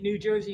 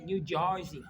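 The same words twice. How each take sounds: First: Said in the usual way. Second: "New Jersey" as Jersey locals say it, "Jersey" like "Charzey"; New Jersey accent. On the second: Shown as a demonstration. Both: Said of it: "you say".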